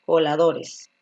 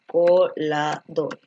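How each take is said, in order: First: Said in the usual way. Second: "Coladores" said very slowly, syllable by syllable, low. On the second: Shown as a demonstration. ("Coladores" dictado muy despacio) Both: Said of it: "la forma correcta de colador".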